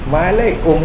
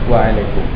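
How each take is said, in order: First: The word begins with an m sound. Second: The word begins with a w sound. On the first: The speaker calls it wrong. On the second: The speaker calls it right.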